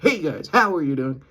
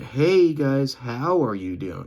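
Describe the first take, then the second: First: It is said with a hard punch. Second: It is said with a gentle push.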